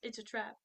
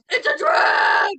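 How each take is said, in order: First: It is said calmly, without yelling. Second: It is yelled loudly. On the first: This is how the line is actually delivered. "he doesn't yell. He just says" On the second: This is how people usually quote the line. "whenever anyone quotes him, it's always"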